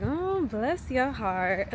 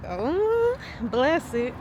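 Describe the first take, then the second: First: Put-on slow, drawn-out Southern old lady's sympathy; slow "bless your heart" as a Southern old lady. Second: High, swooping "oh" of real sympathy; heartfelt, pitying "oh", then a gentle blessing; sincere sympathy. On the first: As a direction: lightly imitate an old Southern lady, drawling it out. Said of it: "like, a Southern old lady". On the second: Shown as a demonstration. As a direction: coo it like you actually mean it. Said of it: "people actually mean it ... in that type of tone".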